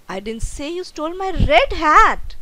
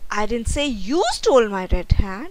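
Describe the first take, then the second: First: The stress is on the word red. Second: The stress is on the word you.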